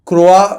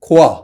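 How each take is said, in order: First: It is said like kroa, with a k-r start. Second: It is said like khoa, without an r. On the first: This is an easier form for others to say. "मैंने सोचा क्रोआ बोल देते हैं" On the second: This is how a French speaker says it. "अगर आप एक French person से पूछो तो it's actually pronounced as खोआ"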